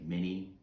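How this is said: The name is said with an American pronunciation. "We would just say mini"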